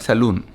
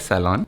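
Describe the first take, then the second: First: "saloon" said sa-LOON with a long oo; wrong pronunciation. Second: "salon" said sa-LON, ending in a clear n; correct pronunciation. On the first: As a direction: stretch the vowel in "saloon" to a long oo. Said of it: "but it is not saloon". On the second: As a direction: say "salon" with the final n sounded. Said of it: "You need to pronounce N". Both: Shown as a demonstration.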